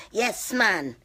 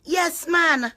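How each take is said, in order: First: Said in the usual way. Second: High, gleeful affirmation; excited yes. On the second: Real, not acted. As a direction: fling it up in triumph. Repeated affirmation.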